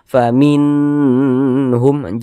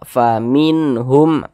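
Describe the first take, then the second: First: The n sound is drawn out and lengthened. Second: The n sound is short and clear. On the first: The speaker calls it wrong. "jangan dipanjangkan seperti itu" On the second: The speaker calls it right.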